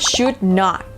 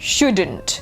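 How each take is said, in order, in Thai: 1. พูดเป็นสองคำเต็ม 2. พูดเป็นคำเดียวแบบย่อ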